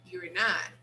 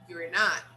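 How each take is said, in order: First: The first two words merge into one syllable. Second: The same.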